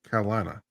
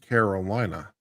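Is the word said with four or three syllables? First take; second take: three; four. First: The word is said with three syllables. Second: The word is said with four syllables. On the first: The speaker is from the state. "if you're native, you'll do three syllables" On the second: The speaker is not from the state. "if you're foreign, you'll do four syllables"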